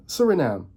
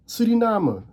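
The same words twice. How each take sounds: First: "Suriname" as SUR-ih-nam, English r; English pronunciation. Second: "Suriname" as soo-ree-NAH-muh, rolled r; Dutch pronunciation. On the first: Contrasting with Dutch, "Suriname" as plain English sur-ih-nam. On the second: Teaching viewers the local name, "Suriname" as soo-ree-NAH-muh. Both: Shown as a demonstration.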